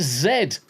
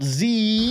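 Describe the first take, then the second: First: Z said as ZED; emphatic ZED for Z; British pronunciation. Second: Z said as ZEE, high and drawn out; long, mocking ZEE for Z; American pronunciation. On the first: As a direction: end Z on a clear d, ZED. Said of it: "It's like it's Z". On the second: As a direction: stretch Z into a rejected ZEE. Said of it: "not Z". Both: Shown as a demonstration.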